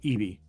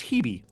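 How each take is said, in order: First: The name begins with a vowel sound. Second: The name begins with an H sound.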